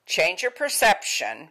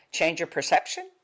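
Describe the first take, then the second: First: Change your perception said slowly with weight on your; slower, stressed. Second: Said in the usual way. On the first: Shown as a demonstration. Teacher repeating the choice slowly, stressing it. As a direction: lean on your and take it slow.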